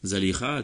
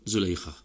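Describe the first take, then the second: First: The name follows the fa'ila pattern, first vowel a. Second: The name follows the fu'aila pattern, first vowel u. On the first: "dibaca dengan fa'ila" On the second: "ataupun fu'aila"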